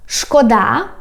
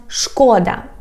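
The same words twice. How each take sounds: First: "szkoda" stressed on the final syllable, -DA; stress on last syllable. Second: "szkoda" stressed on the first syllable, SZKO-. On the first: Teacher contrasting homographs, "szkoda" stressed on final DA. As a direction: push the stress onto the end of "szkoda". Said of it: "we have a word". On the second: Teacher contrasting homographs, "szkoda" stressed on first SZKO. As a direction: lengthen the opening syllable of "szkoda". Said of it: "if you put stress on the". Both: Shown as a demonstration.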